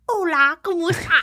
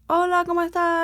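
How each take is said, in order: First: It is said with an exaggerated British accent. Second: It is said with a natural Spanish-sounding accent.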